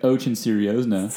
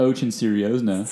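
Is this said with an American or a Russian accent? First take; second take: American; American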